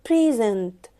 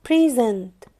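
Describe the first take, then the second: Both takes have the same delivery.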